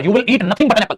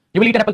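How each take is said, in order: First: Nothing pressed hard in You will eat nothing but an apple; stress on nothing. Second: Said in the usual way. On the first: Shown as a demonstration. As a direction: lean on nothing to make the point. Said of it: "थोड़ा जोर डाल के बोलना चीजों को". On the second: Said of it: "ऐसी बातें गुस्से में तो बोलेंगे ना पापा".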